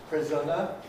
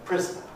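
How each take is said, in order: First: The n follows a short schwa vowel. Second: The n is plain, not a syllable. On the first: "We start off with schwa N" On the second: "we get non-syllabic N"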